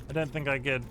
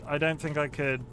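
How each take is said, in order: Both takes have the same delivery.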